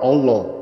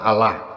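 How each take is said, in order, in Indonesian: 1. Diucapkan dengan logat Jawa. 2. Diucapkan dengan logat Jakarta. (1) "Bahkan Jawa" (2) "Kalau orang Jakarta"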